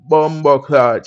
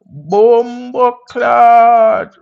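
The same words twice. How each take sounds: First: Said in the usual way. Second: Drawn-out, very slow Jamaican Bumbo Clot, pitched up and louder; hammed-up Jamaican greeting, high and loud; Jamaican accent. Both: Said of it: "I just said Bumbo Clot because people like the accent".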